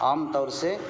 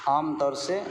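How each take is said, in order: No difference in how they are said.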